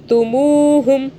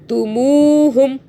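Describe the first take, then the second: The two takes are said the same way.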